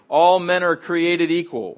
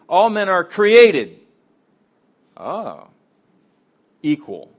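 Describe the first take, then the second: First: The phrase flows without a pause after created. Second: There is a clear pause after created. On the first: All people are equal. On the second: All people are created, and they are also equal.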